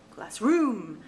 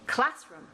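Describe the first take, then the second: First: The stress is on the second syllable. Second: The stress is on the first syllable. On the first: The speaker calls it wrong. "the second one sounds goofy" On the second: The speaker calls it right. "the first one sounds right"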